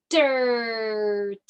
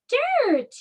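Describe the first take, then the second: First: "dirt" stretched on a long er; slow blending. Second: "dirt" said quickly and much higher; blended whole word. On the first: Teacher blending sounds into a word, slow stretched "dirt". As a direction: drag out "dirt" so each sound shows. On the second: Teacher landing on the finished word, high triumphant "dirt". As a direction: pop out "dirt" as one word. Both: Shown as a demonstration. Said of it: "let's put it all together".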